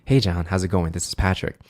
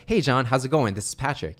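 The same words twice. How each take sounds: First: Low, calm radio greeting; late-night radio hello; cool voice. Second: Upbeat, energetic greeting; smiling, eager sales hello; positive voice. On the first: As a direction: keep it low to make them feel calm. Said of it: "The cool voice is". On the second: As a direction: open lifted and get them excited. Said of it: "The first one was". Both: Shown as a demonstration.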